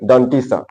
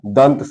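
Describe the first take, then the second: First: The first word ends with an extra 'ee' vowel. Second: The first word ends cleanly on a 't' sound. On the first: The speaker calls it wrong. "आम बोलचाल की भाषा में लोग क्या बोलते हैं" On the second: The speaker calls it right. "डंटी नहीं"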